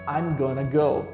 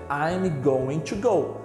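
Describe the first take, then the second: First: Going to is reduced to gonna. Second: Going to is said in full. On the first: This is the form used in speech. "você pode falar" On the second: This is the form used in writing. "Você escreve"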